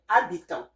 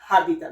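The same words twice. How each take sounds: First: The h at the start is silent. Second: The h at the start is pronounced. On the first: The speaker calls it right. "we say habitant. The H here is silent" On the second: The speaker calls it wrong. "we don't say habitant"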